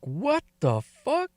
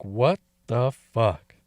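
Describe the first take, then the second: First: Slow, high-pitched what the fuck; high stunned disbelief. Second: Slow, low, flattened what the fuck; low stunned disbelief. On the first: Telling Ava about the strange gift, slow high stunned disbelief. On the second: Reacting to Ava's plan for Nance, low slow dismay. Pulled the pecker in restaurant. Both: Retold or imitated.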